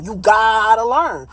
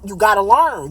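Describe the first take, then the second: First: Slow, firm repeat. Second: Said in the usual way. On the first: Real, not acted.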